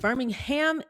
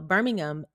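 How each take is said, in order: First: It is pronounced the American, Alabama way. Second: It is pronounced the British, UK way. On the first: It names the city in Alabama. "Birmingham is Alabama" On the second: It names the city in the UK. "Birmingham is in the U K"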